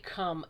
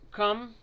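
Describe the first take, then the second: First: It is said without an r sound. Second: It is said with an r sound. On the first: The speaker calls it wrong. "I want to say cum, and it's not cum" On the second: The speaker calls it right. "It's cr- cr- crumb"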